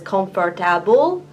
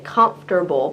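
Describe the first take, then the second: First: Every syllable of the word is pronounced. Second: A middle syllable is dropped in the word. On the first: The speaker calls it wrong. "it looks like it says comfortable" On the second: The speaker calls it right. "in English we say comfortable"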